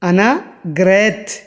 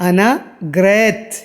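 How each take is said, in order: Both takes have the same delivery.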